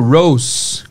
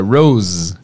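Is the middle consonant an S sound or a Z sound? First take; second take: S sound; Z sound. First: The middle consonant is a hissing S sound. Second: The middle consonant is a buzzing Z sound. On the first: The speaker calls it wrong. "com som de S. Vacilei" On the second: The speaker calls it right. "com Z"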